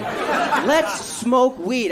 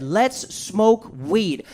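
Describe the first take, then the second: First: Even slower drawn-out offer with a laugh; slower laughing repeat; slow stoner invite, laughing. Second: Very slow drawn-out offer; slow lazy invitation; slow stoner invite. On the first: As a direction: stretch it out and grin. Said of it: "That's what the fuck he said to me". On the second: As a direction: savour each word slowly. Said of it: "He said". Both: Retold or imitated.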